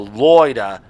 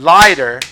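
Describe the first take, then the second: First: It is said with an Australian accent. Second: It is said with a plain American accent.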